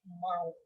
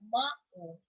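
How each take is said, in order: First: The a and u glide as one sound. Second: The a and u are separate syllables. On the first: The speaker calls it right. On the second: The speaker calls it wrong. "Kita tidak mengatakan"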